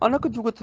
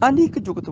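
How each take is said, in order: First: ਅਨਕ with plain short 'a', no 'i'; wrong vowel demo. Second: ਅਨਿਕ with an 'i' after n; correct vowel demo. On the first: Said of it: "ਨਹੀਂ ਬੋਲਣਾ". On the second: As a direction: sound the short i in ਅਨਿਕ. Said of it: "ਨੰਨੇ ਨੂੰ ਸਿਹਾਰੀ ਲਾ ਕੇ". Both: Shown as a demonstration.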